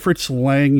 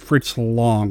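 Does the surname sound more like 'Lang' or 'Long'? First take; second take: Lang; Long. First: The surname has a flat 'a' vowel, like 'bang'. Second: The surname has a broad 'o' vowel, like 'long'. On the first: The speaker calls it wrong. "I called him Fritz Lang" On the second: The speaker calls it right. "You said Fritz Long"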